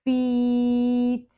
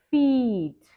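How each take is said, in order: First: Drawn out slowly. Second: Quick, clipped; fast. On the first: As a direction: stretch the word Feet out long. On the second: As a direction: say Feet briskly in one go. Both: Shown as a demonstration. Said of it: "say some words slow and then fast".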